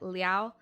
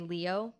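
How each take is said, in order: First: The name is said with an 'ow' glide ending. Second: The name is said ending in an 'oh' sound. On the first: This is likely the original pronunciation. "I'm sure it's more like Liao" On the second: This makes the name a cat joke. "I'm gonna just say Leo"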